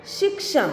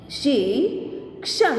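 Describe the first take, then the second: First: Said in the usual way. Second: Slow, each sound drawn out, rising at the end; slow drawn-out reading. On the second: Shown as a demonstration. Teacher slowly sounding out a word for students, drawn out. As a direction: stretch the word slowly for the class. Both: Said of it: "अब इसका शब्द हम देखें".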